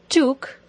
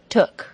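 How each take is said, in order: First: The vowel is a long oo sound. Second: The vowel is a short u sound. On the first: The speaker calls it wrong. "don't say that word with an OO pronunciation like took" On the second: The speaker calls it right. "It should be took"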